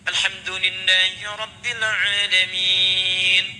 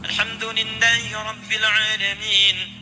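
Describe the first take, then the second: First: It is recited slowly, with a long pause after. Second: It is recited quickly, running into the next verse. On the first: The followers get time to recite along. "Anda bisa jedakan dalam setiap ayat. ... Tidak sebentar" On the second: The verses are joined without a break. "kalau baca hadar misal seperti dalam tarawih"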